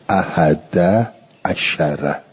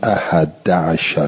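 First: The 'ain of 'ashar carries an a-vowel. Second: The 'ain of 'ashar carries no vowel. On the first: "به فتحه ها" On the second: "به سکون العین"

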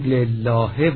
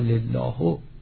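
First: The word ends with an i vowel. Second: The word ends with a different vowel. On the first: The speaker calls it right. "میگوییم لله" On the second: The speaker calls it wrong. "یا لله"

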